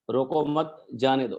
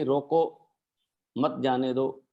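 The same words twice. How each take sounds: First: "रोको मत" together, pause, then "जाने दो"; pause after मत. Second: "रोको", long pause, then "मत जाने दो" together; pause after रोको. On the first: Cartoonist showing the comma's other meaning, pause after मत. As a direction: slowly, break after मत before जाने दो. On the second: Cartoonist showing how a comma changes his story title, pause after रोको. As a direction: break right after रोको, keeping मत with जाने दो. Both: Shown as a demonstration. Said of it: "एक कौमे से बात का अर्थ बदलता था".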